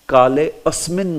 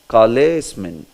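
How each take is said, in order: First: A separate 'a' starts the second word. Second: The words merge with no separate 'a' sound. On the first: The speaker calls it wrong. "Kale asmin nahi. Never" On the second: The speaker calls it right. "That A should never be pronounced"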